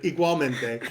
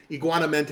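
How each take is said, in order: First: Said in the usual way. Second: "iguanamente", with "iguana" in place of "igual"; mispronounced igualmente. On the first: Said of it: "but igualmente". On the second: Shown as a demonstration. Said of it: "is what I always think in my head".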